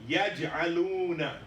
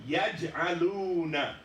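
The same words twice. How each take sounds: Both takes have the same delivery.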